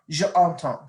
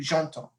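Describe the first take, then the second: First: The e of je is kept separate. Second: The e of je is dropped and joined. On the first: The speaker calls it wrong. "See how that doesn't flow?" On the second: The speaker calls it right. "You have to do j'entends"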